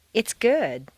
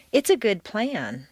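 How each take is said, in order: First: GOOD stressed, with a falling tune; stress on the adjective. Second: PLAN stressed and falling, "good" lighter; stress on the noun. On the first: Teacher giving a phrase to repeat, stress on "good". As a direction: put the weight on "good". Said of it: "you'll stress the adjective". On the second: Teacher modelling descriptive phrases, stress on "plan". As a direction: move the weight from "good" onto "plan". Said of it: "stress will always fall naturally on the noun". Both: Shown as a demonstration.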